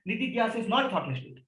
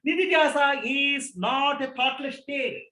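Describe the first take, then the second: First: Said in the usual way. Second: Each word drawn out very slowly for weight; slow emphatic. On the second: Shown as a demonstration. Teacher correcting students' idea of meditation, very slow and deliberate. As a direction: slowly spell out Nidhyasa is not a thoughtless state.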